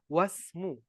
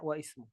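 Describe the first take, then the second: First: The i is dropped and words run together. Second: The i of ismu is pronounced separately. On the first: The speaker calls it right. "Sebaiknya kita baca wasmu" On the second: The speaker calls it wrong. "tidak boleh kita baca wa ismu"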